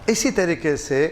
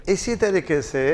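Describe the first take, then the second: The two takes are said the same way.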